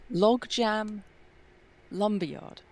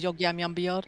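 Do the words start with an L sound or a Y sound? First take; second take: L sound; Y sound. First: The words begin with a clear L sound. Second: The words begin with a Y sound. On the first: "I can't pronounce it" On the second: "So it comes out as"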